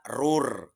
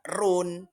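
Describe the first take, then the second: First: The n sound merges into the following r. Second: The n sound is pronounced before the r. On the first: The speaker calls it right. "harus dibaca rur" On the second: The speaker calls it wrong. "tidak boleh dibaca run"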